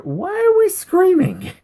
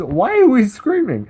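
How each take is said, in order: First: A much higher, slowed, put-on voice for the opponent; mock puzzled opponent. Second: Said in the usual way. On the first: Retelling the opponent's chat in a mock high puzzled voice. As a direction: squeak out his baffled question.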